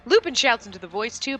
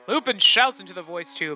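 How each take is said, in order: First: It is read in an ordinary speaking voice. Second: It is read in a dramatic announcer voice. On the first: The speaker calls it wrong. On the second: The speaker calls it right.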